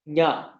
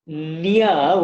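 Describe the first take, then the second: First: The syllable is said as one short sound. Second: The syllable is drawn out like two parts. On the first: The speaker calls it right. "It's it's a s- shorter sound than that" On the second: The speaker calls it wrong. "it sounds sort of like Nya with N Y A or half na, ya, and uh, but actually it's not that"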